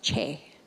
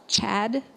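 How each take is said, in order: First: The syllable ends on an open vowel. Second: The syllable ends with a d sound. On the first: The speaker calls it right. "it's pronounced Che" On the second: The speaker calls it wrong. "It's not pronounced Chad"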